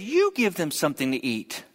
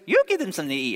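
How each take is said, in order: First: It is said in his normal voice. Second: It is said in a Mickey Mouse voice.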